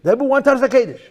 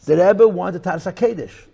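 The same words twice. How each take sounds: First: "Taras" punched higher and louder; stress on Taras. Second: Said in the usual way. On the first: Real, not acted. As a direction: hit "Taras" the second time. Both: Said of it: "repeated with more force".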